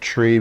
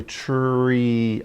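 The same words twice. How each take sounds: First: Said in the usual way. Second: "tree" drawn out slowly. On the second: Shown as a demonstration. Teacher showing children how to hear sounds, "tree" said slowly. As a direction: stretch the sounds of "tree" so each can be heard. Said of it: "you could say it slowly".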